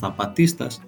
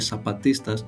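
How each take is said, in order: First: It is said with a Spain-Spanish pronunciation. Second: It is said with a Latin American pronunciation. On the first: This is how people from Spain say it. "οι Ισπανοί ας πούμε το λένε" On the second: This is how the movement itself says it. "ενώ είναι"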